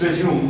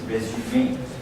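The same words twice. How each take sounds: First: It is pronounced the English way. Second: It is pronounced the French way. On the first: "In English, it is resume" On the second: "the same spelling in French is resume"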